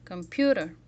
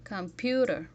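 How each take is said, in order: First: "Computer" with a loud "pu"; "Computer", second syllable louder than the rest; louder stressed syllable. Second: "Computer" with a longer "pu"; lengthened stressed syllable. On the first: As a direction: punch the middle syllable of "Computer". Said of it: "It's louder". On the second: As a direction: stretch the middle syllable of "Computer". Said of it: "It is longer". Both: Shown as a demonstration.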